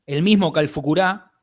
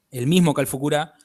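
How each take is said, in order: Both takes have the same delivery.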